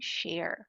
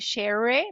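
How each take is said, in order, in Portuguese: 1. A palavra termina em som de R. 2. A palavra termina em som de vogal aberta. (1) "e sim share" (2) "Não é share"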